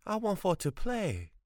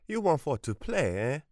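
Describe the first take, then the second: First: Put-on high pleading boy's wail with stress on want; piteous wail. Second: High, mocking grandmother with stress on want; mocking echo. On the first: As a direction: beg to play, wailing. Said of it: "he wailed piteously". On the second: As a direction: throw his words back at him scornfully. Grandmother mocks his plea. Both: A narrator's reading.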